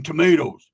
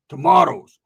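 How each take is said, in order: First: "tomatoes" with a long AY in the middle. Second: "tomatoes" with a broad AH, louder. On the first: Friend balking at picking "tomatoes", said tuh-MAY-toes. Says tomatoes two different ways. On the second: Friend balking at field work, "tomatoes" said tuh-MAH-toes. Mocking second pronunciation of tomatoes. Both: Retold or imitated.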